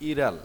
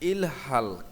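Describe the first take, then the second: First: The middle h sound is dropped and linked. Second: The middle h sound is clearly pronounced.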